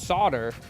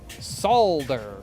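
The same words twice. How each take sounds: First: The L sound is left out of the word. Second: The L sound is clearly pronounced in the word. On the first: This is the American way of saying it. "For American English, the L in solder is silent" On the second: This is the British way of saying it. "For British, because y'all say everything"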